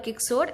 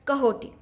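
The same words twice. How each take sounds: First: The name is said with English spelling sounds. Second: The name is said with Spanish sounds. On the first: The speaker calls it wrong. "It's not Quixote" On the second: The speaker calls it right. "it's Quixote"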